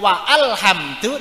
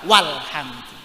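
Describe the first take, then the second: First: A glottal stop separates wa from alhamdu. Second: Wa runs straight into lhamdu without a stop. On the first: The speaker calls it wrong. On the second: The speaker calls it right. "tetapi walhamdu"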